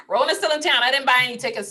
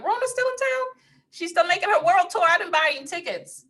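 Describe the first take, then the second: First: Laughing repeat. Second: High sassy put-on voice; high mocking voice, playful; mock sassy quote. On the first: Real, not acted. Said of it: "repeat of the joke". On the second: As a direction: pitch it way up, teasing. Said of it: "I'm like".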